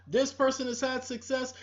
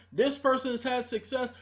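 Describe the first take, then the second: No difference in how they are said.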